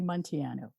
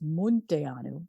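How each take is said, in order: First: The name is said with English-style pronunciation. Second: The name is said with Romanian pronunciation. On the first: The speaker calls it wrong. "I've anglicized it. I say Monteanu" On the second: The speaker calls it right. "It's really supposed to be pronounced Munteanu"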